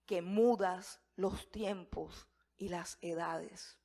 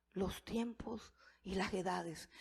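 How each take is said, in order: First: Drawn out slowly, every word weighed; slow solemn reading. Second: Hushed whisper, breath only. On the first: Preacher reciting Daniel's prayer to congregation, slow and solemn. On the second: Preacher echoing Daniel's prayer to congregation, whispered reverently. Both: Shown as a demonstration. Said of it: "repeats prayer line, then whispers it".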